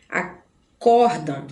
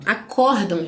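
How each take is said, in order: First: "Acordam" said slowly and clearly, stress on the middle syllable; slow demo of Acordam. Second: Said in the usual way. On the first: Shown as a demonstration. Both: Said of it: "gente, tá?".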